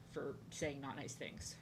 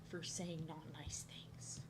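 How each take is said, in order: First: Said in the usual way. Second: Very slow, breath-only whisper; whispered repeat. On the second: Real, not acted. Telling viewers why she got fired, whispered. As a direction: drop to a slow secretive whisper.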